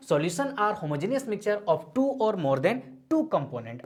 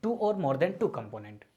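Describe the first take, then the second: First: Very slow, every word spaced for note-taking; slow dictation. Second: Slow, with two leaned on each time; stress on two. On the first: Teacher dictating the definition to students, very slow. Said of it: "क्या है solution?". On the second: Teacher underlining the key phrase for students, slow stress on two. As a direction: lean on the word two, unhurried. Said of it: "अब इस बात को थोड़ा समझते हैं". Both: Shown as a demonstration.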